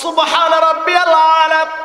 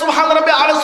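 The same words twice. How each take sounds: First: The phrase is said slowly and clearly. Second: The phrase is rushed and hard to follow. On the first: This is the proper, attentive way to pray. The speaker calls it right. "তোমার হাবিব বলল" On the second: The worshipper prays hastily without attention. The speaker calls it wrong. "কোন ভাষা বান্দা কয় কিছু বুঝি না"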